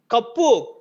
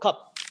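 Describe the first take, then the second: First: The word ends with an added 'u' vowel. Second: The word ends on a consonant, no added vowel. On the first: This is the borrowed Telugu form of the word. The speaker calls it wrong. "You have to chop, you have to cut that last "u."" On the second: This is the English form of the word. The speaker calls it right. "you should come back and say"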